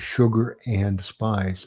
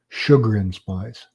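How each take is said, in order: First: The word 'and' is said in full. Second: The word 'and' is reduced to a weak form. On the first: "instead of"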